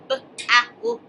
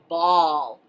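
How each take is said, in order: First: The vowel sounds like the word owl. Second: The vowel sounds like the word all. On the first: The speaker calls it wrong. "not b-owl" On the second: The speaker calls it right. "but ball"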